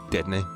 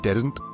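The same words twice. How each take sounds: First: The word ends with an 'nee' sound. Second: The word ends with an 'nt' sound.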